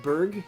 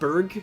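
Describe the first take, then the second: First: The name ends with a hard g sound. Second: The name ends with a hard g sound.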